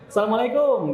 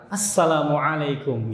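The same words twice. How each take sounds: First: "Assalamualaikum" run together as "salamalaikum", with no ain, high-pitched; old careless greeting. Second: "Assalamualaikum" slow and careful, with a throaty ain in "alaikum"; proper ain greeting. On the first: Retold or imitated. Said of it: "Kemarin-kemarin kemana tuh salam?". ("Assalamualaikum" asal-asalan tanpa ain, nada tinggi) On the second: Shown as a demonstration. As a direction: articulate every syllable of "Assalamualaikum", ain pronounced from the throat. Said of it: "Karena udah belajar ain". ("Assalamualaikum" pelan dengan ain yang jelas)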